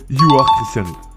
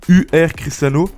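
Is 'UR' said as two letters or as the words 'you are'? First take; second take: you are; letters. First: UR is spoken as the English words 'you are'. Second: UR is spoken as two separate letter names. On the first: The speaker calls it right. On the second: The speaker calls it wrong.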